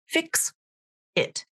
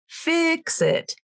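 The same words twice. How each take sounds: First: The two words are said separately with a break. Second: The two words run together like one word. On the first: The speaker calls it wrong. "It's not fix it" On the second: The speaker calls it right. "It becomes almost one word because you're linking those two words together"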